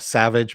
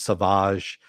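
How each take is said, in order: First: It is pronounced the ordinary English way. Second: It is pronounced in an altered, unusual way. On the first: This is the everyday word. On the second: This is how the show names it.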